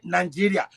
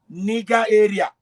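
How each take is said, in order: First: The g is soft, like a j sound. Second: The g is hard, like in go. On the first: This is how the British say the name. The speaker calls it wrong. "only British say Nigeria" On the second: This is how the rest of Europe says the name. The speaker calls it right. "The rest of Europe say Niger area"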